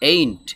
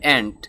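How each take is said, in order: First: The vowel is an 'ay' sound. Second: The vowel is a short 'a' sound. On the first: The speaker calls it wrong. "এইন্ট বললে এটার উচ্চারণ সঠিক হবে না" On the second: The speaker calls it right. "সঠিক উচ্চারণ হবে অ্যান্ট"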